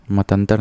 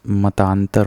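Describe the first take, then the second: First: मतांतर with a short middle vowel, "matantar"; wrong form. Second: मतांतर slowly, with long middle "taan"; correct form. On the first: Teacher rejecting an error, मतांतर with short "tan". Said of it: "नहीं होता". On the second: Teacher correcting students, मतांतर with drawn-out "taan". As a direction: stretch the second vowel of मतांतर. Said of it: "मतांतर होता है". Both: Shown as a demonstration.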